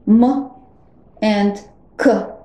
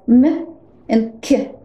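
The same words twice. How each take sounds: First: The consonants are hard, not palatalized. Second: The consonants are soft and palatalized. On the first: "they are pronounced as hard consonants" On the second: "they become palatalized and are pronounced soft"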